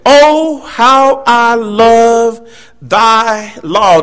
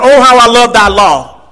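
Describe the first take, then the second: First: "Oh" lifted high, then "how I love thy law" stretched very slowly; drawn-out fervent quote. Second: "Oh, how I love thy law" said at a normal pace, a little raised; quicker first reading. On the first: Preacher savoring the psalmist's declaration, slow and fervent. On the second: Preacher first reading the psalm, brisker. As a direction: read "how I love thy law" straight through without stretching. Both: Retold or imitated. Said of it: "He said".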